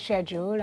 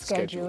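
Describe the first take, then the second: First: It is said with a British pronunciation. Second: It is said with an American pronunciation. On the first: "we say schedule" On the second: "Americans say"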